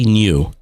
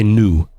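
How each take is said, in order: First: New pronounced nyoo, the British way; new with a y glide. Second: New pronounced noo, the American way; new without a y glide. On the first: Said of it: "like, I say new". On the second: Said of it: "I don't say new". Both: Shown as a demonstration.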